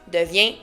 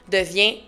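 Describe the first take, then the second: Both takes have the same delivery.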